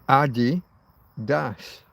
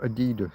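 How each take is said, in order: First: It begins with the nickname Adi, then das. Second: It does not begin like the nickname Adi. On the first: The name comes from the founder's nickname. The speaker calls it right. "Adi Das. Adi Dassler" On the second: The speaker is trying to sound posh. The speaker calls it wrong. "It's not Adidas. Stop trying to be posh"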